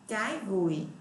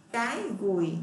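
Both takes have the same delivery.

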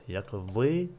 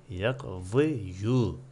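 First: Said in the usual way. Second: "yakzi yu" said slowly, with a spoken final "yu" vowel added; wrong pronunciation. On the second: Shown as a demonstration. Teacher showing students the mistaken form to avoid, slow "yakzi yu" with the "yu" voiced. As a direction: drag out "yakzi yu", sounding the extra "yu" on the ya. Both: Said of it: "Ama yu diye telaffuz etme".

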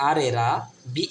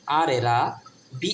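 No difference in how they are said.

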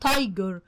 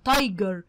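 No difference in how they are said.

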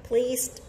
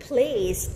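First: Pleased with a d ending; teacher repeating pleased; ed as d sound. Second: Teacher showing the final sound in pleased. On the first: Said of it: "chữ đờ á". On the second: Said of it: "chữ E D lúc này chúng ta sẽ được đọc thành". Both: Shown as a demonstration.

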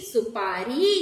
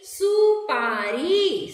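First: Said in the usual way. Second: सुपारी drawn out very slowly, syllable by syllable; slow syllable blending. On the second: Shown as a demonstration. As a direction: stretch सुपारी out slowly for the children. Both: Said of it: "र में बड़ी की मात्रा री".

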